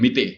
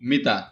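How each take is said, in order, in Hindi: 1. शब्द 'e' स्वर से खत्म होता है। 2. शब्द 'a' स्वर से खत्म होता है। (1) "कुछ जगहों पे मिता की जगह मिते बोलते हैं" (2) "अरबी मतलब होगा मिता"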